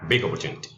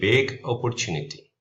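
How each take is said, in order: First: The G sound runs straight into the vowel. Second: The two words are said as separate words. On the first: "These two we're gonna merge and make one word" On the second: "anybody who's learning can take this and, and, and read"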